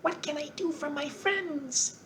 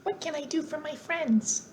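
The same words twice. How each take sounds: First: High, soft squeaky mouse queen; squeaky little voice. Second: High, soft squeaky mouse queen; a second go at the tiny squeaky queen; squeaky little voice. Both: A narrator's reading. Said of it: "in her squeaky little voice".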